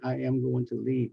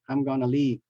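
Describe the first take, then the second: First: Every word is said fully and separately. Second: The words are contracted and reduced together.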